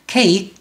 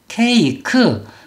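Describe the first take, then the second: First: The word is said with one syllable. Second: The word is said with three syllables. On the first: The speaker calls it right. "이름절로 소리를 내라는 거 다시 한번 해보겠습니다" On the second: The speaker calls it wrong. "이렇게 되면 요거는 한글이지 영어가 아니라는 거예요"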